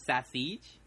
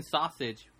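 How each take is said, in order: First: Sausage said as "sa-SEEJ"; exaggerated dialect pronunciation. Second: Sausage said as "SAW-sij"; plain English sausage, stressed first; standard pronunciation. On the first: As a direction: sausage with long "seej", rising. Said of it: "but it's sausage". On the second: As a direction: sausage with a short "sij" ending. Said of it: "you're saying sausage, but it's". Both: Shown as a demonstration.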